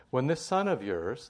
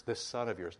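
First: "son" pushed louder with a rise, words slowed; stressed slow quote. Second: Said in the usual way. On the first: Shown as a demonstration. Preacher quoting the older son, stressing "son" louder and slower. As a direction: hit "son" hard in "this son of yours". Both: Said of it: "not your brother".

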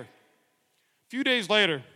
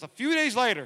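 First: A few days later stretched out slowly; slow right down on a few days later; slow, drawn out. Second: Said in the usual way. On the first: Shown as a demonstration. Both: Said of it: "rereads the line slower".

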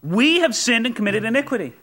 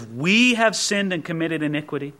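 First: "have" landing firm, falling; "have" stressed in a falling line. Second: "we" leaned on a little; "we" lightly stressed, owning the sin. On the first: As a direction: hit "have" and let it drop. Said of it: "It, it, it's we. Verse five". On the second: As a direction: point up the word "we". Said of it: "Did you notice that? It's we". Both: Shown as a demonstration.

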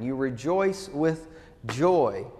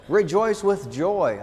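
First: "joy" lands last with a falling, lingering stress, slowed and at normal level; teacherly slow underline of "joy". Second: "Rejoice" and "joy" both hit hard, louder and higher, slowed; preacher's ringing emphasis on "Rejoice with joy"; emphatic proclamation. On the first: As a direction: unpack "You rejoice with joy" slowly, letting "joy" fall. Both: Shown as a demonstration. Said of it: "The verb and then the, uh, the noun".

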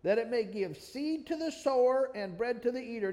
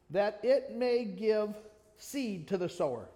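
First: Said in the usual way. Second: "that it may give" drawn out slowly, each word weighted; slow down and lean on "that it may give seed to the sower"; slow emphasis. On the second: Shown as a demonstration. Preacher stressing the verse to his listeners, slowly and weighted. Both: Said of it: "I want you to look at and emphasize right here".

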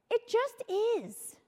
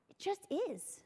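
First: Slow emphatic. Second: Softly echoed, almost under breath; soft, quiet repeat. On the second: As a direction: let it drop to a hush. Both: Retold or imitated. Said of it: "And he's like".

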